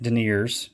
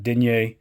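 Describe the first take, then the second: First: The word is said with an anglicized pronunciation. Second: The word is said with a French-style pronunciation. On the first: The speaker calls it wrong. "some people are, are pronouncing it deniers over here in the States" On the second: The speaker calls it right. "but I think the actual, I'm probably not saying it exactly right, but denier"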